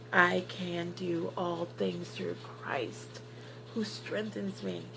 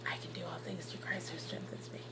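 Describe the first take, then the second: First: Slow, soft, word-by-word delivery; hushed, measured affirmation with a pause before the last phrase; deliberate mantra. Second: Barely audible whisper; whispered mantra. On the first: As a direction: say each word slowly and quietly, with resolve. Mantra repeated slowly for resolve. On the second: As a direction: whisper it to yourself to get through. Acting out her mantra under strain. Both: Retold or imitated.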